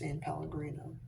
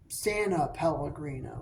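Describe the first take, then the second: First: The first word is said as one syllable. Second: An extra syllable is added after 'San'. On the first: The speaker calls it right. "It's not. It's San Pellegrino" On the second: The speaker calls it wrong. "I always want to put an extra"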